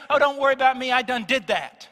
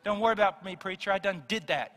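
First: Imitated Southern churchgoer. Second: Near-plain casual retelling of "Don't worry about me, preacher, I done did that"; lightly voiced Southerner. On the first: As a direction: mimic the dismissive reply "I done did that" with a raised voice. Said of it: "they say". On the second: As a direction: toss off "I done did that" almost in your own voice. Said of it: "most people do in the South".

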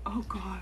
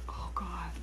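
First: Said in the usual way. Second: Whispered groan. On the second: Real, not acted.

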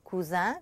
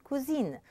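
First: "cousin" ending in a nasal vowel, rising; masculine ending. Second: "cousine" ending een, N sounded; falling "cousine" with a clear final N; feminine ending. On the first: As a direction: leave the N silent in French "cousin". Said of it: "so we have masculine". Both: Shown as a demonstration.

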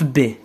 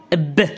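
First: Said in the usual way. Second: ب as a bare "ebb", stopped without a following vowel; ب with sukun, not the letter name "bé"; B read alone. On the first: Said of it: "عندما سأضع مثلًا الحرف ب". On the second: Shown as a demonstration. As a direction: cut ب off on the consonant. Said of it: "ماذا سيقرأ لوحده".

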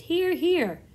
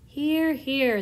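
First: Much higher, louder cheer in a different voice; a second creature joins the cheer; another creature cheering. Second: Loud, higher cheer; cheering shout. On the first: Another creature echoes the cheer, high loud voice. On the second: Creatures agree with the ladybug, loud cheer. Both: A narrator's reading. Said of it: "they all shouted".

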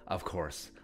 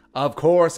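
First: "of course" dropped lower and much softer, under the breath; muttered aside. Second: "of course" punched louder, with "course" stressed; emphatic. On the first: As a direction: mumble "of course" low to yourself. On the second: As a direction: hit "of course" like an obvious fact. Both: Acted. Repeating "of course" in varied ways.

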